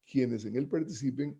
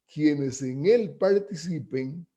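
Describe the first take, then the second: First: Said in the usual way. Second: Slowly, leaning on él in quienes en él participen; slow emphatic phrasing. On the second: Shown as a demonstration. Lecturer to students, slowing to stress who takes part.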